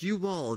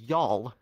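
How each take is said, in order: First: It is said as two full words. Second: It is said as one contracted syllable. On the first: The speaker calls it wrong. "you all, no" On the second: The speaker calls it right. "no, y'all"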